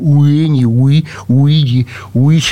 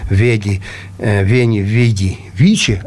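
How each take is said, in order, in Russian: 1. Каждое слово начинается с округлённого звука W. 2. Каждое слово начинается с губно-зубного звука V. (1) "не говорил «Уини, Уиди, Уичи», а уже как-то выражался более правильно" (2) "вот эти лабио-дентальные звуки ВФ"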